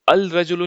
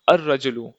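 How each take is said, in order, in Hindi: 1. 'al' साफ़ L ध्वनि के साथ बोला जाता है। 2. L ध्वनि एक दोहरी R ध्वनि में मिल जाती है। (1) "अल रजुलु नहीं बोलेंगे हम" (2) "लाम को हम ओमिट कर देंगे"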